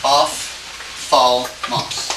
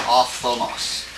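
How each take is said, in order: First: "Ophthalmos" drawn out syllable by syllable; dictating "Ophthalmos" piece by piece; sounded out slowly. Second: Said in the usual way. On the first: Shown as a demonstration. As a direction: say "Ophthalmos" very slowly, a gap after each part. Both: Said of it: "Let me just try to help you".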